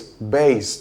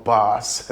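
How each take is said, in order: First: Bass rhyming with base; teacher model BASE; correct pronunciation, slow. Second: Bass rhyming with pass; mock wrong version; wrong pronunciation. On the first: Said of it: "The word is bass". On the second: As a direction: bass said like the fish, short a. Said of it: "the word is not bass". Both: Shown as a demonstration.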